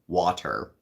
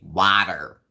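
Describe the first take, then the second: First: It is said in a plain, unaccented way. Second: It is said in a heavy Jersey accent.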